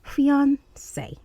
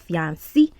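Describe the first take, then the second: First: It is pronounced in a standard English way. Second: It is pronounced in a Yoruba-style way. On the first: The speaker calls it right. "it's fiance" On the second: The speaker calls it wrong. "which is like the Yoruba version of the you know pronunciation of the word"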